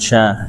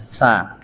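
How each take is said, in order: First: The syllable begins with an sh sound. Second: The syllable begins with a plain s sound. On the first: The speaker calls it wrong. "Bukan sya" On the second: The speaker calls it right.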